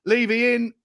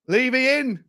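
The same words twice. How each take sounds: First: Said in the usual way. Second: Higher, drawn-out Levy in; delighted chant of Levy in; gleeful announcement. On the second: Real, not acted. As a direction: savour it like a headline. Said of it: "repeated higher".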